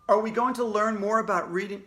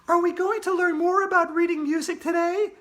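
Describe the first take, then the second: First: It is said in the reader's own voice. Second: It is said in a put-on Andrea voice.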